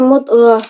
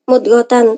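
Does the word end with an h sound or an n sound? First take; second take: h sound; n sound. First: The word ends with a soft h sound. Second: The word ends with a full -tan syllable. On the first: The reading stops on this word. "ketika waqaf maka dibaca mudghah" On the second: The reading continues into the next word. "ketika wasal maka dibaca mudghatan"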